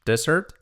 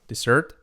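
First: "Desert" stressed DE-, as in sand; stress on first syllable. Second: "Dessert" stressed -SSERT, as in pudding; stress on second syllable. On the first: Teacher contrasting two words, "Desert" stressed first. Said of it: "Desert, desierto". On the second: Teacher contrasting two words, "Dessert" stressed last. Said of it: "Dessert, postre". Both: Shown as a demonstration.

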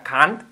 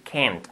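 First: "can't" with an open A, like "kant"; Spanish-style can't. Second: "can't" with an E vowel, like "kent"; American-style "kent" for "can't". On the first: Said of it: "todo el mundo decimos aquí en España can't". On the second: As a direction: front the vowel of "can't" towards E. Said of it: "con A, con una E". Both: Shown as a demonstration.

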